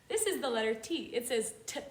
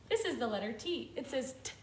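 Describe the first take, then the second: The two takes are said the same way.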